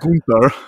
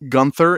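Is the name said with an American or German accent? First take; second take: German; American. First: The name is said the German way. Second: The name is said the speaker's home, American way.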